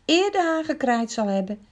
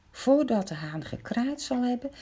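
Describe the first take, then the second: First: Solemn Jesus quote. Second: Said in the usual way. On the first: A narrator's reading. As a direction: intone it like scripture. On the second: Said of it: "restates in plain words".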